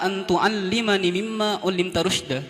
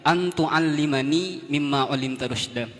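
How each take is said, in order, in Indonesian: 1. Vokal setelah nun dibaca pendek. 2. Vokal setelah nun dibaca panjang. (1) "langsung ... tidak dipanjangkan nunnya" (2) "Harusnya di sana panjang bacanya"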